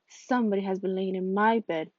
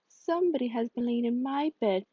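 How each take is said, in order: First: It is said in a deep, rough, gruff voice. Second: It is said in a medium-pitched, moderate voice.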